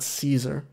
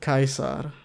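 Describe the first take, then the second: First: The word begins with a soft S sound. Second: The word begins with a hard K sound. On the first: This is the usual English pronunciation. "and not Caesar" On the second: This is the original Latin pronunciation. "I said Caesar"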